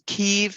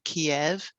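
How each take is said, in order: First: The city name is said in the Ukrainian way. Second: The city name is said in the Russian way. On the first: This is the name used by Ukrainians. "they're saying Kiev now" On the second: This is the name used by Russians. "instead of the Russian"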